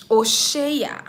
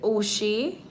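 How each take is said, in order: First: Oshea said as three syllables, oh-SHAY-ah, with a falling end; corrected name. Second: Oshé said as two syllables, oh-SHAY, slowly; first guess at the name. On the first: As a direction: correct it to Oshea, adding the final ah. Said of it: "Okay, okay. I'm sorry". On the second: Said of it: "Did I pronounce your name right?". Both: Shown as a demonstration.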